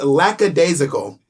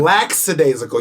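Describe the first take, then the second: First: The word has no added S or X sound. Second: The word has an added S or X sound. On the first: The speaker calls it right. "I pronounced that absolutely correctly" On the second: The speaker calls it wrong. "you're saying lackadaisical. You're adding an S or an X that doesn't exist"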